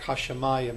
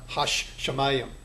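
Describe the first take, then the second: First: The sh sound is said once, not lengthened. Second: The sh sound is held long, doubled. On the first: The speaker calls it right. "it's really going to sound more like" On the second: The speaker calls it wrong.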